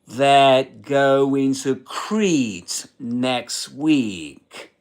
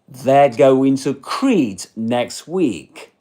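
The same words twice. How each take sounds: First: The sentence is said slowly and carefully. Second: The sentence is said at normal speed.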